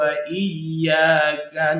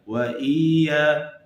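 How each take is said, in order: First: The double y is pressed strongly. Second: The double y is pressed weakly. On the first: The speaker calls it right. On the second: The speaker calls it wrong. "kurang menekan"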